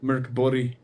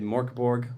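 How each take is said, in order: First: The name is said with its native pronunciation. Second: The name is said with an anglicized pronunciation.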